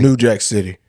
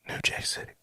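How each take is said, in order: First: It is said more loudly. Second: It is said at normal, quieter volume.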